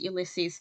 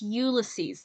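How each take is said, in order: First: The stress falls on the second syllable. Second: The stress falls on the first syllable. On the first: The speaker calls it wrong. "Please don't pronounce it Ulysses" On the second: The speaker calls it right. "The emphasis is on the U"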